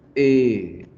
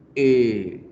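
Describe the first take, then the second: No difference in how they are said.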